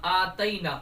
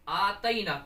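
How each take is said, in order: No difference in how they are said.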